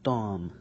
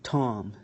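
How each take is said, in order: First: The t is released without a puff of air. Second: The t is released with a puff of air. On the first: "with the ta" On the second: "with the T"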